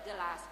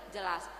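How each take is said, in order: No difference in how they are said.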